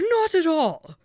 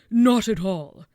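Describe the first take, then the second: First: It is said in a high-pitched voice. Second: It is said in a low-pitched voice.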